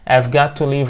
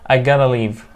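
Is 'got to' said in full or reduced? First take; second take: full; reduced. First: 'Got to' is said fully as two words. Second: 'Got to' is blended into one word 'gotta'.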